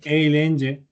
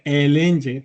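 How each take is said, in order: First: The first vowel glides toward an i sound. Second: The first vowel is a plain e sound. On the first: This is how most people actually say it. "todo el mundo dice eilenge" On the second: This is how it should really be read. "realmente se le- debería leer elenge"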